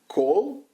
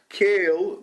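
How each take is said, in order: First: The name is said with an 'oh' vowel. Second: The name is said with an 'ay' vowel. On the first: This is how most people say it. "Most people pronounce it Cole" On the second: This is how someone who knew him said it. "Mason calls him"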